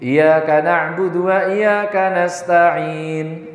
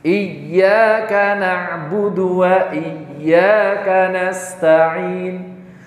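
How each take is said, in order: First: The ya sound is short and single. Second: The ya sound is doubled and pressed. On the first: The speaker calls it wrong. "kalau membacanya seperti ini" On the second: The speaker calls it right. "ya bertasdid dinta, tekan"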